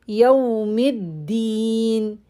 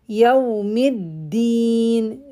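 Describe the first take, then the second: Both takes have the same delivery.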